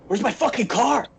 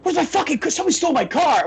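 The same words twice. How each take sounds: First: Raised pitch, mock-alarmed shout; retold panicked yell. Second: Much higher, building mock shriek of panic; retold frantic yell. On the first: Imitating the wrestler yelling for his stolen car, mock panic. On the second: Imitating the wrestler finally losing it over the car, hammed-up shriek. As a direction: push the imitation into a hammed-up screech.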